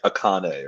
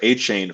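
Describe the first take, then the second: First: The middle consonant is a 'k' sound. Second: The middle consonant is a 'ch' sound. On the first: The speaker calls it wrong. "I was like saying like Akane or something" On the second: The speaker calls it right. "I also learned it's pronounced A-Chain from you"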